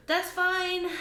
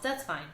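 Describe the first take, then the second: First: High, louder strained cheerfulness; forced cheer. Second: Said in the usual way. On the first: Real, not acted. Vlogger insisting her rootless orchid is fine, higher forced cheer. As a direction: insist it's fine through gritted optimism.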